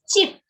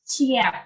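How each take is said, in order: First: The word is said as one syllable. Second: The word is split into two syllables. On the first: The speaker calls it right. "is pronounced as cheap" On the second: The speaker calls it wrong. "not cheap"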